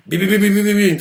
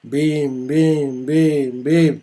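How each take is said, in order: First: Quick rattled-off bims; rapid-fire beats; fast beats. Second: Calm, evenly spaced bims; lazy steady beats; slow beats. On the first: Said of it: "Ça va super vite". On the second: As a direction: tap them out slowly. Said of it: "tranquillement, quoi". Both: Shown as a demonstration.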